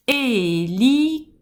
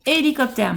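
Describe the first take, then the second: First: "Hélicoptère" with a long held é, then separate beats; "Hélicoptère" slow, syllable by syllable; stressed first syllable. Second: Said in the usual way. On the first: Shown as a demonstration. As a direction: draw out the opening é of "Hélicoptère". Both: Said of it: "On va accentuer la première syllabe".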